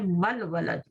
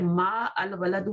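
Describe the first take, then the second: First: The two words are run together into 'mal'. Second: The two words are said separately, with 'al' kept. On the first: The speaker calls it right. "जब मिला के पढ़ना हो" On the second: The speaker calls it wrong. "तो फिर मा अल वलदू नहीं पढ़ेंगे"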